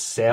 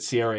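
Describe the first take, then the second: First: The name is said with two syllables, like Sarah. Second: The name is said with three syllables, like Sierra. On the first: The speaker calls it right. "It's Sarah" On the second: The speaker calls it wrong. "I pronounced Sarah Angel wrong. I pronounced it Sierra Angel"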